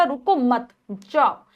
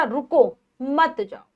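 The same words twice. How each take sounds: First: "रुको मत" joined, a short break before "जाओ"; pause after मत. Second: "रुको" set apart, then "मत जाओ" joined; pause after रुको. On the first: Teacher recalling the first sentence for pupils, pause after "मत". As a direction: break the phrase after "मत", setting "जाओ" apart. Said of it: "यानी कि यहाँ पर रुको मत चले जाओ". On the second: Teacher recalling the opposite sentence for pupils, pause after "रुको". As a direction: break right after "रुको", keep "मत जाओ" together. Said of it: "दोनों ही उल्टा अर्थ बता रहे थे". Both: Shown as a demonstration.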